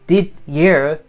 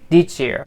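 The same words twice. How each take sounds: First: The d and y sounds are kept separate. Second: The d and y sounds blend into 'j'. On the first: The speaker calls it wrong. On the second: The speaker calls it right.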